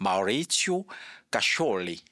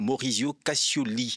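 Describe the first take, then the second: First: The name is said with an Italian pronunciation. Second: The name is said with a French pronunciation. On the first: "mais il y a une prononciation italienne" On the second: "Ça, c'est la prononciation française"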